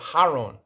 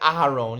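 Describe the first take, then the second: First: The name starts directly with the h sound. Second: The name starts with a vowel before the h. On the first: The speaker calls it wrong. "You said Haron" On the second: The speaker calls it right. "You didn't say Aharon"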